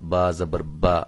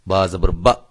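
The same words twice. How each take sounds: First: The final syllable is said softly and smoothly. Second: The final syllable is cut off with a jerk. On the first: The speaker calls it right. "बड़ी नरमी के साथ" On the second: The speaker calls it wrong. "ये झटका भी नहीं देना है"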